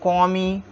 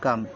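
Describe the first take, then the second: First: It ends with an 'ee' vowel sound. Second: It ends on the m sound. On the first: The speaker calls it wrong. "ऐसा वैसा कुछ नहीं पढ़ेंगे" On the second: The speaker calls it right. "इसको हम पढ़ेंगे कम"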